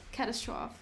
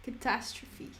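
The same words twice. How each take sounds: First: Catastrophe as "CAT-a-strawf"; catastrophe in three syllables, ending "-strawf"; preferred pronunciation. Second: Catastrophe as "ka-TASS-tro-fee"; catastrophe in four syllables, ending "-fee"; standard pronunciation. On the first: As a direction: stress the first syllable of catastrophe, silent final e. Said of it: "exciting to say it's a". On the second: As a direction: stress the second syllable of catastrophe. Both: Shown as a demonstration.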